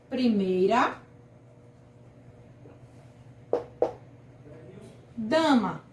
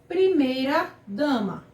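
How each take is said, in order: First: "Primeira" then a long pause before "dama", both clearly dictated; spaced-out example word. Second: Said in the usual way. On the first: Shown as a demonstration. (ditado pausado: "Primeira", pausa longa, "dama") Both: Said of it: "o exemplo aqui também é primeira dama".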